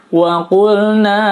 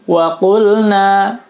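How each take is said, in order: The two takes are said the same way.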